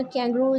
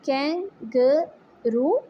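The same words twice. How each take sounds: First: Said in the usual way. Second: "kangaroo" slowly, in three separate beats; split into syllables. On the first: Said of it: "second है kangaroo". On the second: Shown as a demonstration. Teacher shows pupils the syllables, "kangaroo" broken slowly into three. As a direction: draw out "kangaroo" with a break after each syllable. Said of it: "three syllables".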